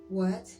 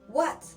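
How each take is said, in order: First: It is said as a puzzled question. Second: It is said in an angry way. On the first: "like you want to say in English" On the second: "what when you're angry"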